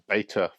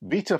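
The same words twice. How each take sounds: First: Beta is pronounced in an American way. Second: Beta is pronounced in a non-American way.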